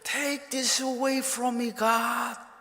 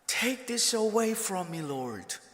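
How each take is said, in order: First: It is said in a louder voice. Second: It is said with moderate loudness.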